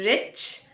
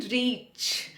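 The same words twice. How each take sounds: First: "Rich" with a short i. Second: "reach" with a long ee. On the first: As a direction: keep the vowel brief in "Rich". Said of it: "छोटी ई की मात्रा". ("Rich" में छोटी इ की मात्रा) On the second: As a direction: stretch the vowel in "reach". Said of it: "बड़ी ई की मात्रा". ("reach" में बड़ी ई की मात्रा) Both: Shown as a demonstration.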